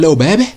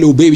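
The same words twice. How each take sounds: First: It is said in an imitated Leeds accent. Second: It is said in the speaker's own accent.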